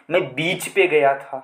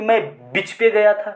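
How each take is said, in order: First: बीच held long with ee, lower pitched; correct long vowel. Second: बीच cut short to bich; wrong short vowel. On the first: Teacher correcting students' sentence, long ee in बीच. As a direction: lengthen the ee in बीच. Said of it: "बीच पे नहीं दोस्तों". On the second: Teacher showing what students should not say, short i in बीच. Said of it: "आप ये तो कहोगे नहीं कि". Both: Shown as a demonstration.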